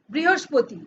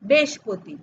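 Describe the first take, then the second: First: Said in the usual way. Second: বৃহস্পতি worn down to "beshpoti"; spoken-style বৃহস্পতি, first syllables squeezed into "besh"; colloquial pronunciation. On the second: Shown as a demonstration. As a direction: say বৃহস্পতি as everyday "besh-poti". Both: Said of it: "কি বলি?".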